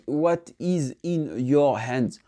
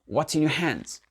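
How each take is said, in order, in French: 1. 'What is' se prononce en deux mots pleins. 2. 'What is' se réduit en un seul mot réduit. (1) "il dit pas what is" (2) "le what is, il est vraiment réduit"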